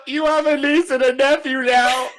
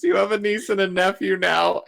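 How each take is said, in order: First: Loud, high-pitched mock wail; tearful yell. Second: Higher-pitched, lightly acted outburst; half-hearted retelling of a tearful yell; mock yell. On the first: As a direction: blurt it out in a hammed-up, laughing cry. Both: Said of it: "Just yells at Ben".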